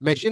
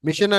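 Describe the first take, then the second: First: It is said like 'meshin', ending in 'shin'. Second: It is said like 'mishan', with a Telugu-style vowel. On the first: The speaker calls it right. "అది మెషిన్ అనాలి" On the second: The speaker calls it wrong. "మిషన్ అనేది Telugu Telugu type లో ఉంటది"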